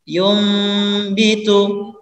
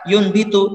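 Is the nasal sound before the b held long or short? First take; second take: long; short. First: The nasal before the b is held long. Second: The nasal before the b is rushed and short. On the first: The speaker calls it right. "gunakan terlebih dahulu" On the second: The speaker calls it wrong. "jangan terburu-buru karena misalkan yun bitu"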